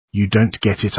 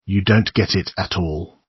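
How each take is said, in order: First: Shouting. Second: Said in the usual way. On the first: A narrator's reading. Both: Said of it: "I shout".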